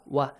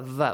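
First: The syllable begins with a rounded w sound. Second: The syllable begins with a buzzing v sound. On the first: The speaker calls it right. "Waw must be pronounced correctly" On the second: The speaker calls it wrong. "Not va, va. We don't have v in Arabic"

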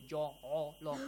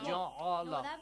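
First: The letters are pronounced heavy and raised. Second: The letters are pronounced light, without raising. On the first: The speaker calls it wrong. "We don't say ja'ala. It's wrong" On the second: The speaker calls it right. "We say ja'ala"

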